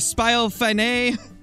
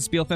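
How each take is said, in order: First: The name ends with a long 'fine' sound. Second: The name ends with a short 'fin' sound. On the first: "I'm going to make sure I say it very wrong next time" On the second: "instead of saying Spielfin"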